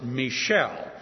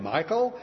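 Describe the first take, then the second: First: The name sounds like the girl's name Michelle. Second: The name sounds like the boy's name Michael. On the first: The speaker calls it right. "I prefer to pronounce it Michelle" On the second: The speaker calls it wrong. "It sounds like a boy's name"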